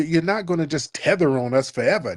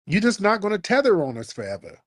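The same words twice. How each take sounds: First: Said in the usual way. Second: Higher and faster, driving it home; repeating the warning to the other side, higher and faster; emphatic repeat. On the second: Real, not acted. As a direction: say it again like a final warning. Repeats the point more forcefully.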